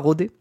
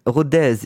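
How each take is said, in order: First: The final z sound is silent. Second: The final z sound is pronounced. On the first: The speaker calls it wrong. "ça se dit pas comme ça" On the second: The speaker calls it right. "Il faut dire le z"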